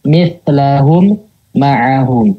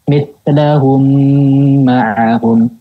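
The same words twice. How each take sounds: First: A pause breaks the two m sounds apart. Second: The m flows smoothly with a full nasal hum. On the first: The speaker calls it wrong. "memberikan jeda di antara kedua mim" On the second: The speaker calls it right. "langsung dialirkan ... yaitu gunakan sempurna"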